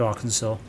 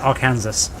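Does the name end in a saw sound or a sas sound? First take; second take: saw; sas. First: The ending sounds like saw, no final s. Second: The ending sounds like sas, like Kansas. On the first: The speaker calls it right. "I knew it's called Arkansas" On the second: The speaker calls it wrong. "I would have said Arkansas"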